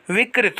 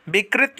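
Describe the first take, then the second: First: विकृत as "vik-rit"; correct v sound. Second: विकृत as "bik-rit"; wrong b sound. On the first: Teacher giving students the right form, clear v. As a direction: start विकृत with v. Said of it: "होता है". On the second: Teacher showing students the mistake, b substituted. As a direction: start विकृत with b. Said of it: "नहीं होता है". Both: Shown as a demonstration.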